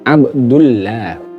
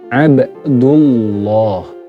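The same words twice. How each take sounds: First: The L sound is thin and light. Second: The L sound is thick and heavy. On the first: The speaker calls it wrong. "Jangan dibaca ... kalau itu dibaca tipis jadinya" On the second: The speaker calls it right. "diawali dengan harokat dhammah"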